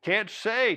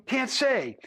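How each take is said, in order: First: Said in the usual way. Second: Can't say thrown back, higher and pointed; quoting back mockingly. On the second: A narrator's reading. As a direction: mimic the cowboy's can't say with a jab. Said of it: "to quote you".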